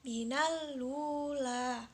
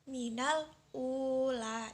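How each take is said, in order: First: The glottal stop drops and 'l' links to 'ula'. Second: A glottal stop is kept before 'ula'.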